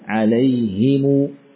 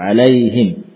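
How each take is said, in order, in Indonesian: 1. Vokal i setelah h, m diikuti u panjang. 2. Vokal i setelah h, berakhir dengan m diam. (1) "Tidak disukun mimnya, namun dibaca dengan harakat dhammah, kemudian ada yakni mad setelahnya" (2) "Sebagian mengusapkannya dengan seperti itu"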